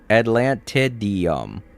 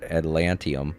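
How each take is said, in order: First: The word is said with five syllables. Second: The word is said with four syllables. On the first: The speaker calls it right. "See how it's pronounced?" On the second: The speaker calls it wrong. "you're completely missing the I D E"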